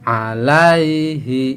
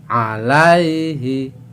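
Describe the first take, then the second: Both takes have the same delivery.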